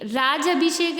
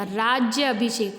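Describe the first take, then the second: First: राज अभिषेक said quickly as "raaj-abhishek". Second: राज्य अभिषेक said as "raajya-abhishek"; half ज plus या in राज्य अभिषेक; य glide. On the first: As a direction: run राज straight into अभिषेक. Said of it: "राज अभिषेक नहीं होता". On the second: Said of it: "आधा जा और फिर या". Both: Shown as a demonstration.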